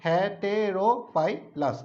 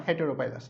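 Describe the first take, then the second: First: হেটেরোপাইলাস said very slowly, one syllable at a time. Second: Said in the usual way. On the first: Shown as a demonstration. Teacher splitting the name into syllables for students, very slow. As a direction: pull the word apart slowly. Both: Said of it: "syllable আকারে ভাঙালে সুবিধা হয়".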